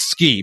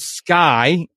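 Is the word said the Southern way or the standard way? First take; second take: standard; Southern. First: The vowel sounds like 'ski', standard style. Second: The vowel sounds like 'sky', Southern style.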